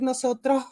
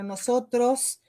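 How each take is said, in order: First: The S sounds are swallowed or aspirated. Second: The S sounds are clearly pronounced. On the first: The speaker calls it wrong. "no decir nosotros" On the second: The speaker calls it right. "sino nosotros"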